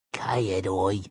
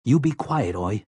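First: Softly echoed creature voice; whispering animal. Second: Said in the usual way. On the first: A narrator's reading. Bumbler echoing Jake's warning to hush, whispered back. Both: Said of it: "the bumbler whispered back".

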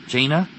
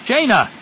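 First: JAINA with a high rising tone; questioning call. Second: Loud, high urgent call; yelled. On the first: A narrator's reading. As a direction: say "Jaina" as a question, lifting the end. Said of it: "Zek asked". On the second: Acted. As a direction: call her name sharply to snap her out of it. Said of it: "Zek yelled".

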